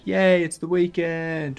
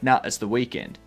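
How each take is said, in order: First: It is said in a cheerful, excited tone. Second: It is said in a grumpy, dismissive tone.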